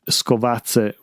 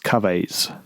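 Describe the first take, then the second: First: The word has its local dialect pronunciation. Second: The word has an anglicized English-style pronunciation. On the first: It is the local word for rubbish. "which is to the local dialect for rubbish" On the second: It doesn't mean anything in any language. "the way Siri pronounces it is Skaves"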